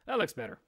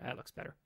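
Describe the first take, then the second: First: Said in the usual way. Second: Breathy whisper, no voice. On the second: Shown as a demonstration. Streamer whispering a remark before repeating it aloud. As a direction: whisper it to yourself.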